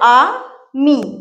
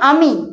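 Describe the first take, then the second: First: The word is split with a break between syllables. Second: The word is said smoothly as one unit.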